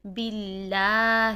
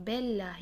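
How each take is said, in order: First: باللہ with a thin, light lah, slow and drawn out; باللہ, thin lam; thin Allah. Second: باللہ said as belah, the ب vowel opened to be; باللہ, mistaken be sound; wrong broad be. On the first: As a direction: recite باللہ keeping Allah thin after kasra. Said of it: "اللہ کے نام کو باریک پڑھیں گے". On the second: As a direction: whisper the wrong version باللہ with be. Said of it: "بے نہیں کریں گے". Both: Shown as a demonstration.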